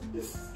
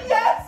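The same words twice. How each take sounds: First: It is said in a sad voice. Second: It is said in an excited voice.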